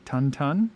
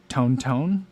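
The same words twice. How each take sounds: First: "Tun Tun" with a short U, drawn out; two slow, short-vowel syllables on "Tun Tun"; alternate pronunciation. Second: "Tone Tone" with a long O, drawn out; two slow, even syllables on "Tone Tone"; alternate pronunciation. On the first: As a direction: say "Tun Tun" slowly, rhyming with sun. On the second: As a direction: say "Tone Tone" slowly, rhyming with bone. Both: Shown as a demonstration. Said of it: "pronounced differently than that".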